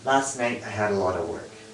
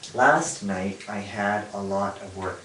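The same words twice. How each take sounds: First: Stressed syllables stand out and weak vowels are reduced. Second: Every syllable is slow, clear and evenly timed. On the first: It sounds like a native speaker. The speaker calls it right. "But English is stress time" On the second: It sounds like a non-native speaker. The speaker calls it wrong. "They would speak it slowly and clearly"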